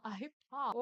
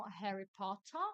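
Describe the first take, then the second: First: Potter with the T swallowed, po-ah; Harry Potter, glottal stop for the T; British T dropped. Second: Potter with a clear, crisp double T; Harry Potter, T's fully sounded; British T pronounced. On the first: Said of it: "com nenhum sotaque". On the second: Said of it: "ou você vai falar com muito sotaque". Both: Shown as a demonstration. Teacher contrasting two British ways to say Potter.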